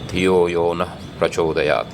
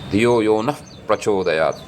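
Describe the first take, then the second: First: The sound before 'p' is a plain breathy 'ah'. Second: The sound before 'p' takes a special modified form. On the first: "I'll pronounce it the way it comes to me easily" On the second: "I've seen some people pronounce it like this"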